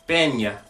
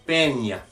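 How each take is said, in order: Both takes have the same delivery.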